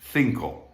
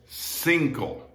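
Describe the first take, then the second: First: The first consonant is a th sound. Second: The first consonant is an s sound. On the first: This is how it is said in Spain. "it's pronounced like a T H in Bath" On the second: This is how it is said in Latin America. "that C is pronounced like the S in sister"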